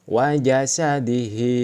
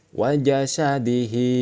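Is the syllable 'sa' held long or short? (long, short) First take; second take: short; short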